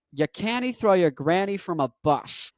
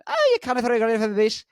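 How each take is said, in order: First: Scottish, spelled out. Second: Put-on high, loud, rapid Scottish accent; Scottish relative. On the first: Retold or imitated. Relative repeating for a puzzled visitor, clearer Scottish accent. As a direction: repeat it more distinctly, lightly Scottish. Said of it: "I said, "What?". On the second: Relative in Scotland scolding, fast thick Scottish voice. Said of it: "one of my relatives said".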